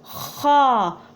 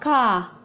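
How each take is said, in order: First: It starts with a raspy throat friction. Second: It starts with a hard k stop. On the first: The speaker calls it right. "It is ha" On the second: The speaker calls it wrong. "It's not ka. Don't say ka"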